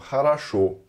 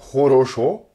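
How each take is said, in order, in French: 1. Les deux premières voyelles s'affaiblissent vers un A. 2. Les trois voyelles sonnent comme un O plein. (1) "on entend хорошо" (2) "on n'entend pas хорошо"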